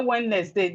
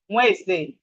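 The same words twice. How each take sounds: First: The D in the middle is pronounced. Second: The D in the middle is silent. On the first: The speaker calls it wrong. "Some of us say Wednesday" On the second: The speaker calls it right. "The proper pronunciation is Wednesday. The D is silent"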